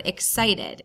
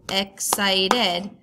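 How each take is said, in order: First: Said in the usual way. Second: Excited split into three separate beats, ex-cit-ed; clapped-out syllables. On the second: Shown as a demonstration. Teacher clapping out syllables for students, excited in separate beats. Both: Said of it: "If you clap out the syllables".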